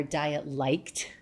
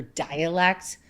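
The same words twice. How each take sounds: First: Dialect said slowly as DIET-LIKED; punning mispronunciation. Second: Said in the usual way. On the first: Shown as a demonstration. New Yorker mocking Californian talk, "diet-liked" drawn out as a pun. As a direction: stretch it into two words, "diet-liked". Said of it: "get used to their dialect". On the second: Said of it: "or rather diet-liked".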